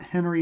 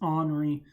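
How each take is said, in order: First: The name sounds like the English name Henry. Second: The name sounds like the French name Henri. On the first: The speaker calls it wrong. "It's not Henry" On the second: The speaker calls it right. "that's how you pronounce it"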